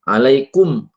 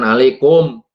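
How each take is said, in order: First: The final vowel is a pure, clear u. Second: The final vowel is distorted, not a pure u. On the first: The speaker calls it right. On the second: The speaker calls it wrong.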